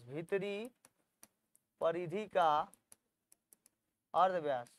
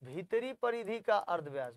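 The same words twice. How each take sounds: First: "भीतरी", "परिधि का", "अर्धव्यास" one piece at a time; rising "भीतरी", pause, "परिधि का", pause, falling "अर्धव्यास"; dictation pauses. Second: Said in the usual way. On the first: Shown as a demonstration. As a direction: dictate with long gaps after "भीतरी" and "परिधि का". Dictates phrase in separate pieces.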